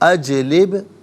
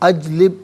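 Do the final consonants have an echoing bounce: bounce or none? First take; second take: bounce; none. First: The final consonants are said with an echoing bounce. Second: The final consonants are said without an echoing bounce. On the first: The speaker calls it right. "यहाँ पर आवाज़ लौटती हुई महसूस होनी चाहिए" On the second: The speaker calls it wrong. "अजलिब नहीं"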